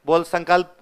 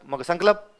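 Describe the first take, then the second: First: संकल्प said as "sankalp" with no vowel between l and p; teacher models संकल्प as "sankalp"; correct sankalp. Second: संकल्प said as "sankalap" with an extra vowel before the p; mock the Ganganagar "sankalap" for संकल्प; imitating wrong sankalap. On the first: Retold or imitated. Teacher tells the student to say संकल्प as "sankalp". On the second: Teacher mimics the student's "sankalap" for संकल्प. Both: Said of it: "ये तुम Ganganagar side वालों की दिक्कत है".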